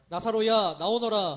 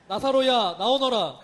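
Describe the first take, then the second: First: It is said at a moderate volume. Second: It is said louder still, near shouting.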